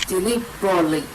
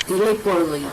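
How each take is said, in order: No difference in how they are said.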